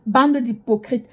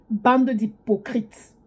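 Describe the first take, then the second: First: Said in the usual way. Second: Bande d'hypocrites dragged out slowly; slow drawn out. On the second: Shown as a demonstration. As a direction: stretch out Bande d'hypocrites word by word.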